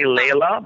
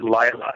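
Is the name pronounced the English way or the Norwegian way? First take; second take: English; Norwegian. First: The name is pronounced the local English way. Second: The name is pronounced the Norwegian way. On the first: This is how people here say it. The speaker calls it wrong. "Here they say Layla" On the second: This is how it is said in the home country. The speaker calls it right. "in Norway we pronounce it Laila"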